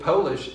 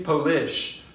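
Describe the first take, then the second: First: The stress is on the first syllable. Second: The stress is on the second syllable. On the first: The speaker calls it right. "it's still stressed on the first syllable" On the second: The speaker calls it wrong. "I don't stress the lish"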